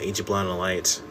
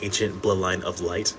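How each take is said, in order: First: The name is said quickly and run together. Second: The name is said slowly and clearly.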